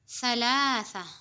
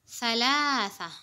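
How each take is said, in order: Both takes have the same delivery.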